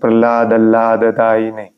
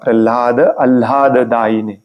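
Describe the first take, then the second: First: The two words are rushed and run together. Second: The two words are kept clearly separate. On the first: The speaker calls it wrong. "गडबडीने आपण म्हणतो" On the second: The speaker calls it right. "हे दोन वेगळे शब्द आहेत, लक्षात ठेवा"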